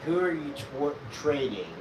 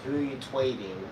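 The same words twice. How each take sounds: First: Said in the usual way. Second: "trading" said as "twading"; Tweety Bird. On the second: Acted. Leaning into the slip while asking about a swap, "trading" lisped as "twading". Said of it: "Tweety Bird from Looney Tunes".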